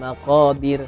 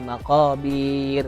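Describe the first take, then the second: First: A vowel in the word is kept short. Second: A vowel in the word is held too long. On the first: The speaker calls it right. "jadi dipendekkan ya" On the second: The speaker calls it wrong.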